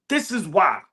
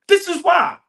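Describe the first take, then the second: First: Said in the usual way. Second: Emphatic. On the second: Shown as a demonstration.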